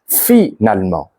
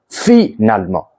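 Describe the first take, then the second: First: Each of the four syllables is clearly pronounced. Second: Each of the four syllables is clearly pronounced.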